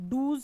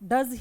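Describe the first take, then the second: First: The vowel is a long 'oo' sound. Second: The vowel is a short 'uh' sound. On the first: The speaker calls it wrong. "डूज क्यों नहीं बोला" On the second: The speaker calls it right. "डज ही क्यों बोला"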